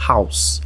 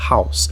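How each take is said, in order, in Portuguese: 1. A palavra termina no som de s. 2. A palavra termina no som de s.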